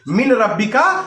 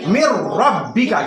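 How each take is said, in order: First: The n is pronounced clearly before the r. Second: The n merges into a doubled r sound. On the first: The speaker calls it wrong. "मिन रब्बी का नहीं पढ़ेंगे" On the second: The speaker calls it right. "यहां इदगाम का कायदा लागू करेंगे"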